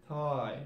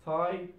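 First: "tie" with the vowel backed towards "toy"; Cockney I. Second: "Tie" with the standard eye vowel; usual I. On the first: Teacher showing learners Cockney British, "tie" with broad I. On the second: Teacher giving the form before Cockney, "Tie" with standard I. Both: Shown as a demonstration. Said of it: "pronounce it like I".

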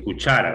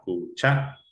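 First: "cuchara" as one word, leaning on the middle syllable cha; stress on CHA. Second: "Cuchara" split as cu-CHA-ra; syllable by syllable. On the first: Teacher confirming the answer, stressed syllable brought out. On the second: Teacher showing the stressed syllable, syllable by syllable. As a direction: separate "Cuchara", lifting cha. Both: Shown as a demonstration. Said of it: "la sílaba tónica".

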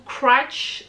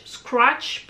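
First: Scratch mumbled and garbled, barely an English word; fumbled Scratch. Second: Scratch said cleanly as skratch with a slight rise; corrected Scratch. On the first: A makeup vlogger fumbles the palette name Scratch in a garbled mispronunciation. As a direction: stumble over Scratch in a tangled French accent. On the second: Correcting her own slip, she says Scratch carefully with a slight rise. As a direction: fix the word Scratch, saying it carefully. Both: Real, not acted.

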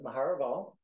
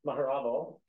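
First: "Maharaval" stressed on the wrong syllable; misplaced stress. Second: "Maharaval" with the emphasis put right; corrected stress. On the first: Host introducing a colleague, stressing "Maharaval" on the wrong syllable. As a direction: say "Maharaval" with the emphasis misplaced, rising at the end. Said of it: "putting the wrong emphasis on the wrong syllable". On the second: Host correcting a colleague's name, re-stressing "Maharaval". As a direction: repeat "Maharaval" carefully, moving the stress to the proper syllable. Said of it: "excuse me". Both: Real, not acted.

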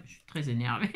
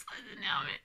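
First: Low, softer admission through a laugh; contained exasperation, pitched low; very annoyed. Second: Very annoyed. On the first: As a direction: mutter it low, amused at yourself. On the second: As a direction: squeal it softly while cracking up. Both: Real, not acted.

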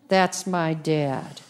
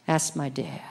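First: Said in the usual way. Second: Hushed whisper; quiet awed whisper. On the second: Pretend. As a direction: breathe it softly in awe. Whispered echo of earlier line.

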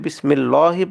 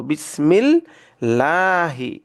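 First: বিসমিল্লাহি with a thick, rounded lam; wrong heavy lam. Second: বিসমিল্লাহি very slow, thin light lam; right way, thin lam; correct light lam. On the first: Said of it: "সেটা ভুল হবে". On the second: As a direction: recite বিসমিল্লাহি light, never heavy. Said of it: "এটাকে চিকন করে পড়ব". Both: Shown as a demonstration.

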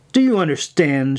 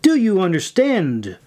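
First: Mildly snapped question; a touch sharp and demanding. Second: Higher, insistent demand; forceful, raised-pitch insistence; louder repeat. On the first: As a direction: snap it at a subordinate, at normal volume. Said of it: "she snapped at her". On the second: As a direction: press the question harder, pitch jumping up. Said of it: "repeated louder this time". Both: A narrator's reading.

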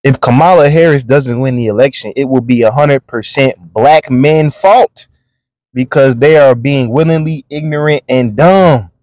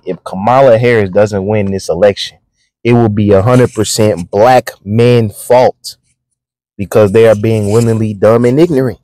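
First: Said in the usual way. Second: Slow, deliberate reread; slowly. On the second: Shown as a demonstration. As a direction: lay every word out slowly so it sinks in. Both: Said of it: "Let me read that again slowly".

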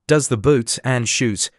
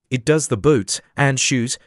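First: Slow, mildly puzzled echo; wondering. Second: Grave, measured answer; very solemn. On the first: Puzzled Alice repeats the Griffin's words, wondering. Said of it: "she repeated in a wondering tone". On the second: Griffin explains the whiting to Alice, very solemnly. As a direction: state it with understated solemnity. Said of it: "the Griffin replied very solemnly". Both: A narrator's reading.

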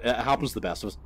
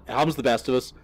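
First: Said in the usual way. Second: Fast, louder mocking echo; mocking repeat. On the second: Mocking the homeowner's words to viewers, sarcastic echo. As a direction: throw the line back sarcastically. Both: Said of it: "He just went".

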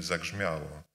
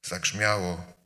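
First: Dismissive shrug. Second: Said in the usual way. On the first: Retold or imitated. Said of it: "i mówimy". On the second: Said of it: "preacher's own summary line".

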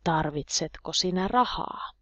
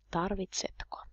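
First: Said in the usual way. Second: A soft breathy whisper of Tarvitsetko; whispered repeat. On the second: Shown as a demonstration. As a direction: whisper the word Tarvitsetko back, barely audible. Teacher repeats question twice.

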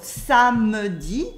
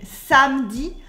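First: "samedi" as three syllables, "sa-me-di"; full French schwa. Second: "samedi" as two syllables, "sam-di"; dropped French E. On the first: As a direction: sound the middle E in "samedi". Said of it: "instead of samedi". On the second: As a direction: cut the middle E in "samedi". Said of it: "subtle difference between samedi". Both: Shown as a demonstration.

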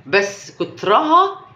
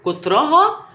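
First: كترها drawn out slowly, rising at the end; slow emphasis. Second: كترها pitched higher and louder, rising; emphatic repeat. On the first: Telling viewers that too much of it is harmful, slow stress on كترها. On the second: Urging viewers to look, كترها said higher and louder. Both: Shown as a demonstration. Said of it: "بصوا".

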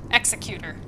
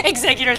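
First: Said in the usual way. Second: "Executor" said like Exeggutor, stressed on the second syllable; mispronounced word. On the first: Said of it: "not ex". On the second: Real, not acted. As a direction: say "Executor" as the Pokemon name, Exeggutor. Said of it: "That's a Pokemon".

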